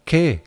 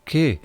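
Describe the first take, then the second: Both takes have the same delivery.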